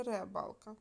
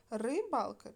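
First: First syllable clearly РЕ in ребалка; spelling option with Е. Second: First syllable clearly РИ in Рибалка; spelling option with И. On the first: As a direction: say ребалка with an open е up front. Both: Shown as a demonstration. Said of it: "Нам треба вставити літери".

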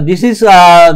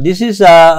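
No difference in how they are said.

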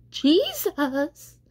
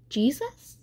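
First: High, drawn-out call, somewhat raised; louder call. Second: High, tentative call for someone; questioning call. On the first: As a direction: call out the name longer and more insistently. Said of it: "he called a little longer, louder". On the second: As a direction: call the name as a question, pitch rising. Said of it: "he said, he called". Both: A narrator's reading.

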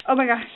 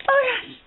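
First: Said in the usual way. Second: Much higher, squeaky oh my gosh; excited. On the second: Real, not acted. Spotting the next gift, high squeak. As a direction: squeak it out in delight. Unboxing gifts.

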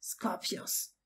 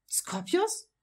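First: Said in the usual way. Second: High, rising surprise; surprised question. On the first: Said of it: "Sein Vater antwortete zugleich jedoch". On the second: A narrator's reading. Draco questioning his father's choice of name, surprised. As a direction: query the name in raised-pitch surprise. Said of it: "fragte Draco überrascht".

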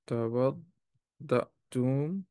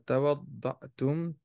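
First: "توضأتم" drawn out slowly in separated syllables, rising at the end; slow careful repetition. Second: Said in the usual way. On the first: Shown as a demonstration. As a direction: say "توضأتم" slowly, piece by piece, for learners. Teacher repeats verb slowly for students.

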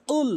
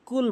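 First: Heavy uvular q starting কুল; correct Qul. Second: কুল with a plain front k sound; everyday k at the start of কুল; mispronounced Qul. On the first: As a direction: push কুল out from the back of the tongue. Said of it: "জিহ্বার গোড়া থেকে কুল". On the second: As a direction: say কুল with an ordinary Bengali k. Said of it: "ভুল ও-, উচ্চারণ". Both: Shown as a demonstration.

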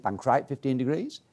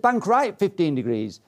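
First: Softer retold echo, rising at the end; pupil's echo. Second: Falling, decisive mock instructor order; instructor's command. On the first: Pupil repeats instructor's order back, retold questioning echo. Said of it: "I said". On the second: Instructor orders pupil to turn, retold command. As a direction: give it as an imitated flying instructor. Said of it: "He said".

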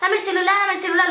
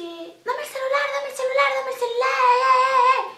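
First: Higher, cocky street demand; a touch of a thuggish girl demanding the phone; tough-girl demand. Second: Mock drugged woman slurring for the phone; slurred junkie voice. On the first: Retold or imitated. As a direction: bark it like a small-time thug. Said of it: "decía algo turro". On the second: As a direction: mumble it like someone too high to speak clearly. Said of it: "No se le entendía un sorungo".

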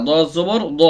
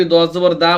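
First: দ as thick Arabic dad with rounded "aw"; heavy dad sound. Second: দা with a light open "aa", quickly; thin vowel mistake. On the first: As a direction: say দ heavy, not "daa". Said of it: "মোটা হরফের উচ্চারণ আকারের মতো হবে না". (মোটা করে দ, আ-কার ছাড়া) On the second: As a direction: wrongly make দা sound like plain dal. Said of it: "আকারের মতো উচ্চারণ করেন". (ভুল করে আ-কারে পাতলা দা) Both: Shown as a demonstration.

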